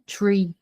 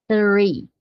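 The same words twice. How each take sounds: First: "tree" with a plain T, no TH; wrong THREE as tree. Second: "Three" with tongue between the teeth. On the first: English teacher showing the mistake for three, said with a plain T. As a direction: say "tree" with a hard T at the front. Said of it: "não é tree". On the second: Teacher models the number three for students, tongue-between-teeth TH. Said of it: "vai fazer a língua entre os dentes". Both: Shown as a demonstration.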